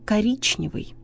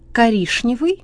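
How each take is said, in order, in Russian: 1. Звук перед n произносится как ch. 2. Звук перед n произносится как sh. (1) "правильно" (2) "ошибка"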